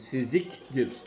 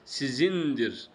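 First: The middle consonant is pronounced as a k. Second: The middle consonant is pronounced as a nasal n. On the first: The speaker calls it wrong. "Siziktir diye okunmaz" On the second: The speaker calls it right. "3 tane nokta geldiği için kefin üstünde nazal nundur o"

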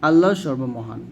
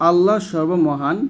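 The two takes are said the same way.

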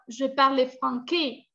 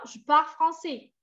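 First: The c is sounded as a hard k. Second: The c is sounded as a soft s. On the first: The speaker calls it wrong. "sin la C, ya están diciendo" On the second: The speaker calls it right. "Et c'est pas comme ça"

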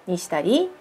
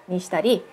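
The two takes are said the same way.

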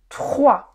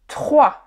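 No difference in how they are said.

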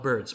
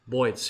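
First: The word is said in a plain accent. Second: The word is said in a New York accent.

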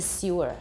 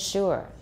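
First: The word begins with an s sound. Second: The word begins with an sh sound. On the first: This is the older pronunciation. "它本来是 sewer" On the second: This is the current pronunciation. "But now it's sugar and sure"

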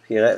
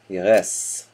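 First: The final S is silent. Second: The final S is pronounced. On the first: The speaker calls it wrong. "it's not a silent S?" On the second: The speaker calls it right. "So you pronounce the S"

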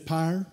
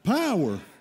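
First: The word is squeezed into one syllable. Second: The word is said with two full syllables. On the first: The speaker calls it right. "it's pyre" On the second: The speaker calls it wrong. "We mispronounced that in there"

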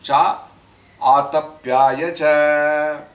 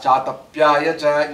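First: The words are kept apart, each vowel sounded. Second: The words run together quickly, vowels merged. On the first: "it is actually cha atapyaya cha" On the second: "when you pronounce it together, you go fast"

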